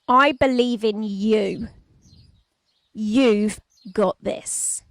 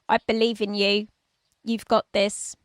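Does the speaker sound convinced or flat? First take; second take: convinced; flat. First: It is said with strong conviction and energy. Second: It is said flatly, without conviction. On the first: The words carry much greater meaning. The speaker calls it right. "an even greater difference if I say it like this" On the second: The words carry little meaning. The speaker calls it wrong. "if I don't say those words with the right level of conviction"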